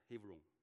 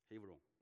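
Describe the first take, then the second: First: The name is said with Hebrew sounds. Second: The name is said with Hebrew sounds.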